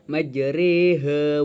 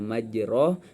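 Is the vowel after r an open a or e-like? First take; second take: e-like; open a. First: The vowel after r leans toward e. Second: The vowel after r is an open a. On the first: "bacaan imalah dimiringkan dan rohnya itu dibaca kayak e" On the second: "awalnya majroh"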